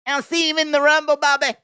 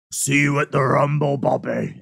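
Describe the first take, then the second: First: Lightly mocking Brock, a bit higher; imitating Brock. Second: A lower, more serious Brock; face-to-face Brock. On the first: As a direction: echo how Brock says Bobby. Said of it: "I love how he says Bobby". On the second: Retold or imitated. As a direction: say it as if he is right in front of you. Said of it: "It's like that when I see him face-to-face".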